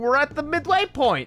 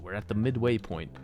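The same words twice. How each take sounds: First: It is said in an excited, cheerful tone. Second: It is said in a dark, ominous tone. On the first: "Excitement, excitement" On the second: "Which sounds terrifying if I say it like that"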